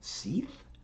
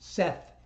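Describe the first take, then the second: First: The vowel is long, as in 'see'. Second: The vowel is short, as in 'bet'. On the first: The speaker calls it wrong. "people have read S E T H as Seeth" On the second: The speaker calls it right. "oh god, Seth, S E T H"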